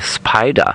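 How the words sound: It is said with a German accent.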